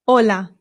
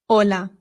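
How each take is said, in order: Both takes have the same delivery.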